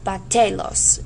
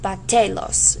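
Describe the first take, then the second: First: The stress is on the second syllable. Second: The stress is on the second syllable.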